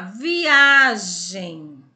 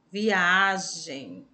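First: Viagem with a very loud, long A; stress on A. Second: Viagem slowly, with a held but not shouted A; milder stress on A. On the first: Teacher showing pupils which syllable of viagem is strongest, stress on A. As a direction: belt out the middle A of viagem, stretched. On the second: Teacher repeating viagem for pupils, milder stress on A. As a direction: stretch the A of viagem at normal volume. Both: Shown as a demonstration. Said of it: "A que nós pronunciamos mais forte".

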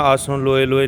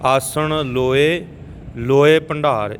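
First: ਆਸਣ ਲੋਏ ਲੋਏ rattled off without a pause; fast, both ਲੋਏ joined in one breath; run-together reading. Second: ਆਸਣ ਲੋਏ, pause, then ਲੋਏ ਭੰਡਾਰ; deliberate split between the two ਲੋਏ; separated phrasing. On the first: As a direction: say ਆਸਣ ਲੋਏ ਲੋਏ hurriedly as a mistake. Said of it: "ਐ ਨਹੀਂ ਕਹਿਣਾ". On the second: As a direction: rise on the first ਲੋਏ, break, fall on ਭੰਡਾਰ. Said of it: "ਇੱਕ ਲੋਏ ਇੱਧਰ ਲਾਉਣਾ". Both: Shown as a demonstration.

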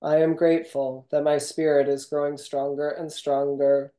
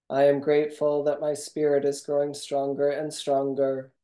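Both takes have the same delivery.

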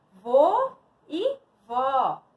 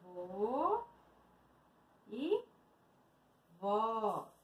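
First: Loud, slow, spaced words; slow word reveal. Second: Soft, widely spaced words; soft repeat. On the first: Shown as a demonstration. Teacher revealing words to pupils, slow and spaced. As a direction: separate each word clearly for learners. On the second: Real, not acted. Teacher echoing the words to herself, softly spaced. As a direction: repeat them slowly under your voice.

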